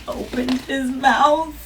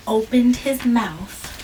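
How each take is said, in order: Both takes have the same delivery.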